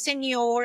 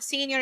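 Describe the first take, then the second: First: "senior" said as sen-YOR; surname's own pronunciation. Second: "senior" said the English way, SEEN-yer; English pronunciation. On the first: Woman correcting people on her surname, "senior" pronounced sen-YOR. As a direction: stress the end of "senior", Spanish-style sen-YOR. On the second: Woman quoting the wrong reading of her surname, English "senior". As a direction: stress the first syllable of "senior", SEE-nyer. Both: Retold or imitated. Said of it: "It's not senior, it's senior".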